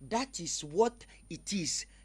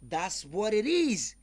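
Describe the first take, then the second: First: 'That is' is said as two full words. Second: 'That is' is contracted to one syllable.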